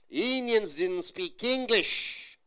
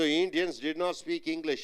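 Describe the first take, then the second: First: The negative is said as one contracted word. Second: The negative is said as two full words. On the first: The speaker calls it right. "In spoken English, didn't" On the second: The speaker calls it wrong. "You don't say did not"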